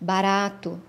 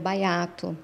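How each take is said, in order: First: The middle consonant is a flapped R. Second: The flapped R is replaced by a Y glide. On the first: This is the word as it is meant. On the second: This is how the child says it. "era baiato"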